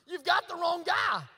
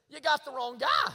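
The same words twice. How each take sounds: First: Slow, high shout; shouted protest. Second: Louder, higher protest with a rising end; raised protest. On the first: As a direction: shout the objection, drawn out. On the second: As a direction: protest that God picked wrong. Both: Retold or imitated. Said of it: "what he says is".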